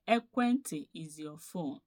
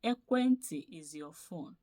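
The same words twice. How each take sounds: The two takes are said the same way.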